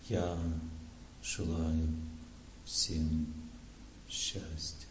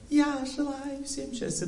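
First: It is said as if recalling something. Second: It is said in an emotional voice.

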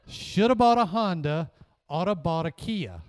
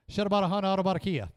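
First: The words are said slowly. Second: The words are said quickly. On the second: "I'm going to say it fast"

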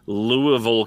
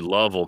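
First: The name is said fully, with all its syllables. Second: The name is clipped into a short, swallowed form. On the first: "if you go into Louisville" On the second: "it's actually Lovell"

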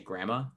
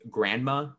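First: It is said as 'gramma' without the 'nd'. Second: It is said with the full 'grand' sound. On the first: "I say grandma. G-R-A-M-M-A" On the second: "I don't say grandma"

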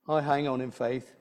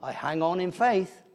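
First: It is said plainly, without marked inflection. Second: It is said with a marked, expressive inflection. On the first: "they probably say it without that sort of inflection" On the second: "that sort of inflection"

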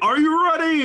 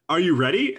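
First: It is said in a hyped, excited way. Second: It is said in a casual, relaxed way.

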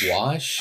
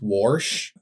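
First: The word has a standard, non-regional pronunciation. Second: The word has an East Texas regional pronunciation. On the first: This is the usual way to say it. "instead of wash" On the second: This is how the mother from East Texas says it. "my mom says wash"

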